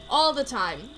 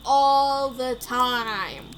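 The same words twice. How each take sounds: First: Said in the usual way. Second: "all the time" hugely stretched out; exaggerated drawl. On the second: Player teasing about Hamster's toasts, exaggerated drawl. Exaggerating, then repeating plainly.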